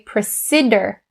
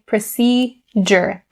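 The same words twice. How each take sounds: First: The middle consonant is a plain D sound. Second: The middle consonant is a voiced J sound. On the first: The speaker calls it wrong. "Do not read it how it is written. Don't say procedure" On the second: The speaker calls it right. "We say procedure, that voiced C H sound"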